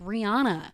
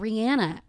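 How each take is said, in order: First: The name is said the commonly heard way. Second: The name is said the less familiar way. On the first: The speaker calls it wrong. "we've all been saying it wrong this whole time" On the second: The speaker calls it right. "that's the real way to say it"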